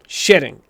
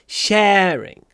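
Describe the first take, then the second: First: The first vowel is short. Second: The first vowel is long. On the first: The speaker calls it wrong. "вы просто делаете короткий э" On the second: The speaker calls it right. "Надо как будто бы произносить звук два раза"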